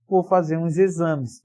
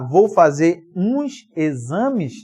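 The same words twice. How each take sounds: First: The words are run together into one flow. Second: The words are said separately, not run together. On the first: "Olha como juntas" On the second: "Em vez de você falar"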